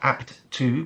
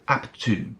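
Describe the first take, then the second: First: The two words are said separately. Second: The two words run together as one. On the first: The speaker calls it wrong. "Not apt to" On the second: The speaker calls it right. "We join the two words together"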